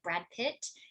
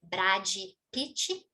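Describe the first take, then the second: First: It is said with final consonants, no extra vowels. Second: It is said with added final vowels, Brazilian-style.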